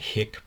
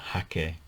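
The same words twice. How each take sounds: First: The word is given an English-style pronunciation. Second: The word is given a Japanese-style pronunciation. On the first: The speaker calls it wrong. "I tend to call this a hake brush" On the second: The speaker calls it right. "actually it should be pronounced as a hake brush"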